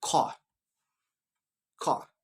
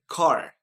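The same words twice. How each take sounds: First: British "car" with a silent R; British accent, "car" as an open kah. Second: American "car" with a sounded R; American accent, hold the R ending "car". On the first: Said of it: "In British". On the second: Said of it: "in American". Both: Shown as a demonstration.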